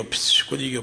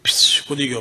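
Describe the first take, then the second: First: Unvoiced whisper of the misfire, softer; whispered fizzle. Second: Said in the usual way. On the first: Teller whispering the rifle's misfire to the crowd. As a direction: breathe the words out as the gun fails.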